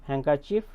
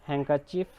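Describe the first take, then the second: The two takes are said the same way.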